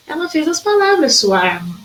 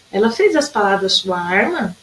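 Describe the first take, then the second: First: Emphatic exclaiming reading; exclamation. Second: "arma?" asked as a puzzled question; questioning reading of the sentence. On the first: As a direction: read it as an admiring exclamation. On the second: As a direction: read it as a doubtful question. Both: Shown as a demonstration. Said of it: "tem dois jeitos de ler".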